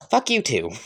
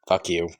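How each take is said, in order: First: High-pitched retort; cheeky comeback. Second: Low, soft curse; muttered insult. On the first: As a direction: throw the insult back high. The insult is returned. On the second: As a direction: drop the insult low and quiet. Two characters trade the insult. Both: Acted.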